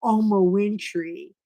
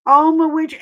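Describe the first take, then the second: First: Said in the usual way. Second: Oma Winfrey called higher and louder; louder called name. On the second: Shown as a demonstration. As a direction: call out Oma Winfrey like a name across a room. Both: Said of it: "She sounds like a housekeeper".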